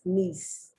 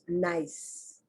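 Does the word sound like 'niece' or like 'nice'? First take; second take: like niece; like nice. First: The vowel sounds like the one in 'niece'. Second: The vowel sounds like the one in 'nice'. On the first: It is the city in France. The speaker calls it right. "when it's a city in France, it's Nice, knees" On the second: It is the ordinary adjective. The speaker calls it wrong. "I know I'm not going to pronounce nice"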